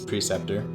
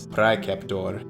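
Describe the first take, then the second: First: The word is pronounced the anglicized English way. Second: The word is pronounced the classical Latin way. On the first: "English is" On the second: "Latin is"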